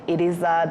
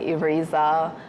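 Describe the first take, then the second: First: The name is said with a Kinyarwanda accent. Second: The name is said with an English accent. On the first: The speaker calls it right. "instead of saying" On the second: The speaker calls it wrong. "they will pronounce it with an English accent or an Australian accent"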